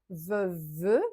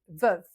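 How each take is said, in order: First: A final vowel is sounded after the v. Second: The word ends on the v, no final vowel. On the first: The speaker calls it wrong. "On va pas dire veuve" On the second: The speaker calls it right. "on dit veuve"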